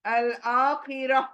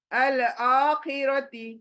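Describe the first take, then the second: First: अल आखिरा said slowly, ending on a plain आ with ती dropped; अल आखिरा as a pausal ending; stopping form. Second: अल आखिरती read in full with the final ती, slowly; अल आखिरती, no pause at the end; full form before stopping. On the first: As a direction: stop on अल आखिरा, cutting off ती. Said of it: "हम क्या करेंगे?". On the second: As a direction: say अल आखिरती with the ending ती still sounded. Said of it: "तो हम stop करेंगे अल आखिरती बोल के?". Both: Shown as a demonstration.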